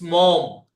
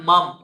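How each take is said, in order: First: The vowel is an 'oh' sound. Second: The vowel is an 'uh' sound. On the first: The speaker calls it right. "it's mom. Okay, so it's like M, M or O" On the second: The speaker calls it wrong. "It's not mum"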